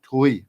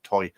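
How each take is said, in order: First: The vowel sounds like 'too-ee'. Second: The vowel sounds like 'oy' in boy. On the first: The speaker calls it right. "that's how you pronounce it" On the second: The speaker calls it wrong.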